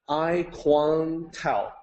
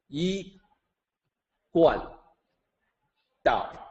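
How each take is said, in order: First: It is read with anglicized spelling-based sounds. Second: It is said with standard Mandarin sounds. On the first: The speaker calls it wrong. "that is the wrong way to say it" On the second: The speaker calls it right. "the correct way to say it"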